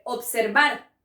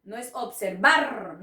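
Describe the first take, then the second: First: Observar with a light tapped r; observar, r tapped once, soft; soft single r in observar. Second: Observar said with a rolled hard rr; wrong trilled r. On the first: Teacher models the soft r of observar. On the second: Teacher shows the wrong hard r in observar. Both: Shown as a demonstration. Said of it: "no, es suave".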